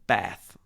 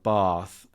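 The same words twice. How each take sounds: First: The vowel is a short, flat A. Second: The vowel is a long, drawn-out A. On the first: This is the northern way of saying it. "and the north" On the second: This is the southern way of saying it. "Bath with the elongated A sound"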